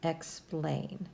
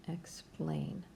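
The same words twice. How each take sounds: First: Said in the usual way. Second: Soft breathy Explain under the breath; a quiet whispered repeat of Explain. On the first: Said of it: "and that word is". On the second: Shown as a demonstration.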